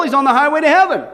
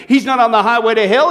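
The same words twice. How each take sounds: First: "heaven" pressed louder and brought down with a fall; stress on heaven. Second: "hell" lifted with a rising tune; stress on hell. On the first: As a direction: land hard on "heaven" and fall. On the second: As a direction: lean on "hell", end rising. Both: Shown as a demonstration.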